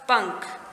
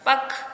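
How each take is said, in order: First: The word is said with a nasal sound. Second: The word is said without a nasal sound. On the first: The speaker calls it right. "जब हमने चंद्र बिंदु और अनुस्वार लगाया तो यह हमारा सही शब्द बन गए।" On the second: The speaker calls it wrong. "यहाँ ये ये प्रॉपर नहीं है।"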